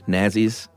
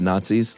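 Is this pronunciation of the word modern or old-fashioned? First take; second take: old-fashioned; modern. First: The word has an old-fashioned, throwback pronunciation. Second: The word has the usual modern pronunciation.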